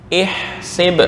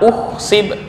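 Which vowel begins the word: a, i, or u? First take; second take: i; u. First: The word begins with an i vowel. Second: The word begins with a u vowel. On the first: The speaker calls it right. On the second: The speaker calls it wrong.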